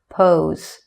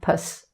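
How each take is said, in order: First: The syllable has a long, full vowel. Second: The syllable has a short, weak vowel. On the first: "it has its full sound" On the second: "the P O S E sounds like pus"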